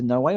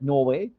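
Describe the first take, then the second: First: It is said in a plain, neutral accent. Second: It is said in a Northern British accent. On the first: "as opposed to Norway" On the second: "I think it was a Yorkshire accent for that Norway"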